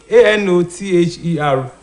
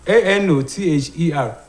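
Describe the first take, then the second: Both takes have the same delivery.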